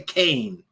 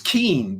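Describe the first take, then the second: First: The vowel sounds like the one in "cane". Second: The vowel sounds like the one in "seen". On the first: "she wants people to say Kane" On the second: "That's Keen to me"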